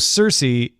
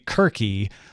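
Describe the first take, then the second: First: The name begins with a soft S sound. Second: The name begins with a hard K sound. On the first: It follows how people commonly say it today. "Circe is really what everybody should say" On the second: It follows how ancient Greeks likely said it. "if you're going to pronounce it like we think the ancient Greeks did"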